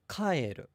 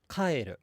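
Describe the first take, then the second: First: The pitch accent falls on the first beat. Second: The same.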